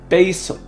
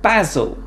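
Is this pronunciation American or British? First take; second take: American; British. First: It is said in American English. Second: It is said in British English.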